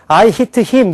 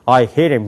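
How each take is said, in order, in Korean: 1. 한국식 억양으로 말하는 거예요. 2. 미국식 억양으로 말하는 거예요. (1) "우리는" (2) "미국 사람들은"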